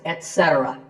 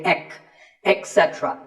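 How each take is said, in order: First: The first syllable is said as 'et'. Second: The first syllable is said as 'ek'. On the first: The speaker calls it right. "So the word is et cetera" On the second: The speaker calls it wrong. "A very common incorrect pronunciation is to say ek"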